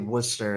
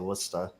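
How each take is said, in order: First: The R sound is pronounced in the word. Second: The R sound is dropped from the word. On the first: This is how Western Massachusetts says it. "we we'll say Worcester" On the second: This is how Boston and Eastern Massachusetts say it. "they'll say Worcester in in Eastern Mass"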